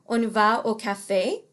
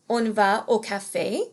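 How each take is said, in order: Both takes have the same delivery.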